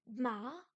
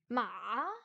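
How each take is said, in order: First: It is said with the second tone. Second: The pitch dips very low, then rises. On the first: "Le plus dur à faire, c'est le deuxième ton" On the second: "Le troisième ton, c'est ma"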